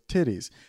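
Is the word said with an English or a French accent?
English. The word is said with an English accent. "he wrote in titties in English and it says, and the voice goes"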